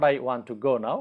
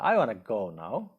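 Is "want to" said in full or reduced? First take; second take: full; reduced. First: "Want to" is said fully and separately. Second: "Want to" blends into one reduced word. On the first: The speaker calls it wrong. "in speaking we use uh, not" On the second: The speaker calls it right. "we say"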